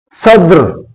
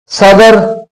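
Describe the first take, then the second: First: सद्र said as one syllable, sadr, with no vowel after the d; teacher models सद्र as sadr, the d and r clustered; demo pronunciation. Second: सदर said as sa-dar, with a full a after the d; teacher spells out सदर as sa-dar for students; demo pronunciation. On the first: Teacher contrasts सद्र, head of state, said sadr. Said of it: "साद के ऊपर ये ज़बर है और दाल और रे जो है ये साइलेंट है". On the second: Teacher models सदर, the word for a bazaar, as sa-dar. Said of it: "स्वाद के ऊपर ज़बर, दाल के ऊपर ज़बर". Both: Shown as a demonstration.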